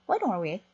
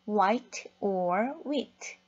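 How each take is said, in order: First: The words run together quickly in one stream. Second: Each word is said separately and carefully. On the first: "이렇게 굉장히 빠르게 발음을 해준답니다" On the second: "정확하게 하지 않고요"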